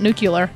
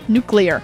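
First: The word is said as nucular. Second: The word is said as nuclear. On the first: The speaker calls it wrong. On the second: The speaker calls it right.

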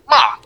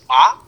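First: The syllable is said with the fourth tone. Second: The syllable is said with the second tone. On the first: It sounds like giving a command. "the fourth tone, ma, is just like a command" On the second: It sounds like asking a question. "The second tone is ma"

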